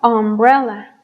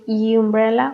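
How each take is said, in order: First: The word begins with a plain vowel sound. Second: The word begins with a Y sound. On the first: The speaker calls it right. "estos sonidos sí son de vocal" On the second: The speaker calls it wrong. "No dijimos umbrella"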